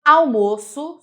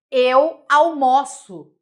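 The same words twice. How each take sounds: First: Almoço said with a closed ô, as the noun; Almoço loud with a closed ô; almoço with a closed ô, noun sense. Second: Almoço said with an open ó, as the verb; almoço stressed with an open ó, verb sense. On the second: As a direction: Eu almoço slow and loud, open ó. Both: Shown as a demonstration.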